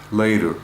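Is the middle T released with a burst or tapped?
tapped. The T is a quick tap without burst.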